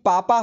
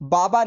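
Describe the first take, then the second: First: The word begins with a p-like sound. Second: The word begins with a voiced b sound. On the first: The speaker calls it right. "बल्कि पापा होगा" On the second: The speaker calls it wrong. "बाबा नहीं"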